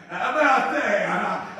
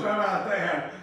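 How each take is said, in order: First: Louder and slower, with a laugh; joyful laughing emphasis; delighted, laughing repeat. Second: Said in the usual way. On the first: Real, not acted. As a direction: savour it with a chuckle.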